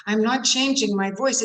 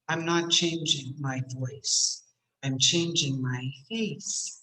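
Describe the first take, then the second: First: Lifted, open and lively; raised-eyebrow voice. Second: Low, slow, heavy delivery; furrowed-face voice. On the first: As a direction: eyebrows up, lighten it. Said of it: "see what happens to my voice?". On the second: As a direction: say it with a frown. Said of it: "see what happens to my voice". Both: Shown as a demonstration.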